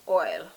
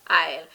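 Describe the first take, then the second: First: It is said with a standard English pronunciation. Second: It is said with a Jamaican Patois pronunciation. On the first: "The proper word is oil" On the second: "But Jamaican patois"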